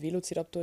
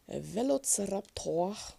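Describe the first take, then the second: First: The word is pronounced in a normal way. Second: The word is pronounced in an odd way. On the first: The speaker calls it right. "Also natürlich ein Velociraptor" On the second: The speaker calls it wrong. "Ich habe das bloß gerade ein bisschen pervers ausgesprochen"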